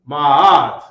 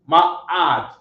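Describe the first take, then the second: First: The vowel sound flows smoothly without a break. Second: The vowel sound is cut off in the middle. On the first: The speaker calls it right. "Say ma'ad. Make it flow like a t- like a hill" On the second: The speaker calls it wrong. "try to not cut the sound in the ah sounds. Don't say ma'ad"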